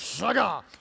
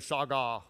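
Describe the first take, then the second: First: The word is said forcefully, with attitude. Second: The word is said flatly, without force. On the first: The speaker calls it right. "You have to say it like that with attitude" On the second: The speaker calls it wrong. "It doesn't work if you say shaga"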